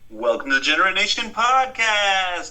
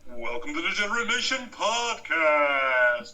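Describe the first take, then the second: First: It is said in the usual announcer voice. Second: It is said in a different, golden put-on voice.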